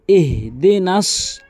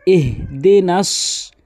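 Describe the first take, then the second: No difference in how they are said.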